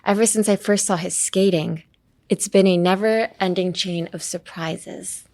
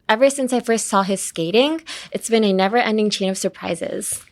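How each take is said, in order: First: The voice falls at the end. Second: The voice rises at the end.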